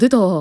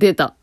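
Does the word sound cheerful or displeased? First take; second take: cheerful; displeased. First: It is said in a cheerful, pleased tone. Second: It is said in a displeased, disgusted tone. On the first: The arrival is welcome. The speaker calls it right. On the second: The arrival is unwelcome. The speaker calls it wrong.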